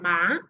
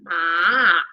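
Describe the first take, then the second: First: The pitch rises. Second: The pitch falls and then rises. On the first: It means hemp. "es un tono que asciende" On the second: It means horse. "es un tono que baja y vuelve a subir"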